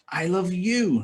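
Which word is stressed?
you. The word 'you' carries the main stress. This person is loved, not another one. "not her"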